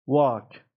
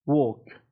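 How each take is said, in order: First: "واک" as American walk, long open ah. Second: "ووک" as British walk, long rounded aw. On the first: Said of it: "لهجهٔ آمریکایی". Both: Shown as a demonstration.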